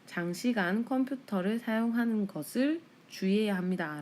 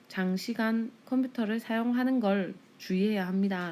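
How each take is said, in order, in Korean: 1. 목적어 구는 풀어서 말하며 두 음절입니다. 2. 목적어 구는 줄여서 말하며 한 음절입니다. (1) "지금 문어체를 썼죠. 것을" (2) "방송 보도는 구어체를 사용하니까"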